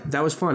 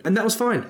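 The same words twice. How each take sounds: First: Said in the usual way. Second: High bright fine. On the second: Shown as a demonstration.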